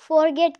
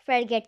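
First: The first syllable has a full 'for' vowel. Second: The first syllable has a reduced 'fur' vowel. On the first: The speaker calls it wrong. "इस अल्फाज को लोग फॉरगेट कहते हैं, लेकिन ये बिल्कुल गलत है।" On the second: The speaker calls it right. "इस अल्फाज को हम फरगेट कहते हैं।"

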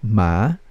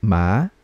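No difference in how they are said.

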